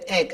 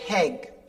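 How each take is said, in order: First: The word starts directly with the vowel. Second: The word starts with an added h sound. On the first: "Instead of saying egg" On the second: "I say heg"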